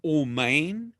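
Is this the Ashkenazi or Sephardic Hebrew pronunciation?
Ashkenazi. It uses the Ashkenazi Hebrew pronunciation.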